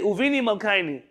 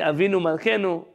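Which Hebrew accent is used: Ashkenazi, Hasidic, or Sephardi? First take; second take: Hasidic; Sephardi. First: It is said with a Hasidic Hebrew accent. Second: It is said with a Sephardi Hebrew accent. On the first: "Chasidim say" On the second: "if Sefaradim say"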